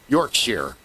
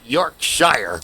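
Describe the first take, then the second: First: The final syllable sounds like sheer. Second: The final syllable sounds like shire. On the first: The speaker calls it right. "It's pronounced sheer" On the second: The speaker calls it wrong. "Not Yorkshire"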